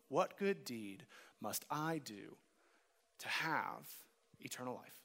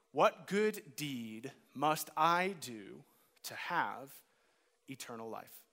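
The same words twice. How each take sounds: First: Said in the usual way. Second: Slow, with "good" drawn out and rising; stress on good. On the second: Shown as a demonstration. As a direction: lean hard on the word "good", slowly. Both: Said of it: "Did you notice the emphasis".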